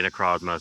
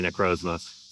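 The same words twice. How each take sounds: First: "ah" in the middle of Necrozma; short O in Necrozma. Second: "oh" in the middle of Necrozma; long O in Necrozma. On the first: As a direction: say Necrozma as neh-KRAHZ-muh. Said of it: "sometimes I'll also say Necrozma". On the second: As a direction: say Necrozma as neh-KROHZ-muh. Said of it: "I say Necrozma". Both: Shown as a demonstration.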